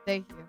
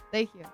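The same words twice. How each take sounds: The two takes are said the same way.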